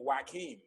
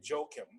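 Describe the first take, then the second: First: The name is said in a Spanish way. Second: The name is said in an English way. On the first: This is how people with a Spanish background say it. "some people who have uh, Spanish background might say" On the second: This is the speaker's own everyday form of the name. "very anglicize it, and I say"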